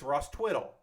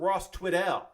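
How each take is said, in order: First: The surname ends with a reduced 'dle' sound. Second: The surname ends with a clear 'dell' sound. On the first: The speaker calls it right. "It's Ross Twiddle" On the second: The speaker calls it wrong. "It's not Ross Twiddell"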